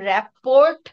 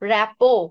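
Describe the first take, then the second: First: The word ends with an audible t sound. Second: The word ends without any t sound. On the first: The speaker calls it wrong. "দয়া করে এটাকে র্যাপোর্ট বলবা না।" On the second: The speaker calls it right. "But it is pronounced as র্যাপো।"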